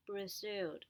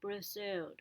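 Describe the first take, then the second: No difference in how they are said.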